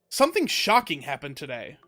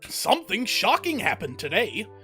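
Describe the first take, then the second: First: It is read in the speaker's ordinary voice. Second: It is read in a put-on old man's voice.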